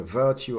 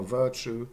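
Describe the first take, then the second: First: VIRTUE as "VUR-tyoo"; uncoalesced form. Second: VIRTUE as "VUR-choo"; coalesced form. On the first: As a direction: say virtue with t plus y. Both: Shown as a demonstration. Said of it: "J coalescence may explain".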